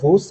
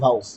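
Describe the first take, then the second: First: The vowel sounds like 'oh'. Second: The vowel sounds like 'ow'. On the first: "অনেক জায়গায় দেখা যায় ভোস" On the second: "উচ্চারণে আসলে আমরা ভাউসই নেই"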